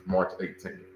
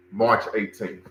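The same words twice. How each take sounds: First: Softer echo of the date, said back to himself; a quiet confirming repeat of "March eighteenth"; quieter repeat. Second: Said in the usual way. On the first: Real, not acted. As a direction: repeat it more softly as a confirmation.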